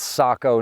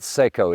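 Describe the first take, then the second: First: The first vowel sounds like 'ah'. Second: The first vowel sounds like 'ay'. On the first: The speaker calls it right. "it's Sako" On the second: The speaker calls it wrong. "not Seiko. It is not a watch"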